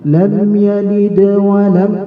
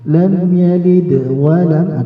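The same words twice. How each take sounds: First: The words run together without any break. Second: A slight pause separates the words. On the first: "langsung mewasolkan" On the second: "ada sedikit jeda, enggak langsung nyambung"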